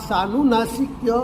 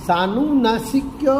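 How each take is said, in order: No difference in how they are said.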